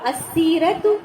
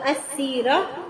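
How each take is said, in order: First: The word ends with a full 'tu' sound. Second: The word ends with a soft 'h' sound. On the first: The word is read in its full connected form. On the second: The word is read with a stop at the end.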